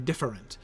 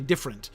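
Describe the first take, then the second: First: The word is said with three syllables. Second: The word is said with two syllables. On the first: "you can do it with two or three" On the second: "you can do it with two or three"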